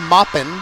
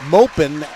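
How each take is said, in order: First: The first vowel sounds like in 'pop'. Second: The first vowel sounds like in 'open'. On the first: The speaker calls it wrong. "as in Mary Poppins" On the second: The speaker calls it right. "as in rhymes with open"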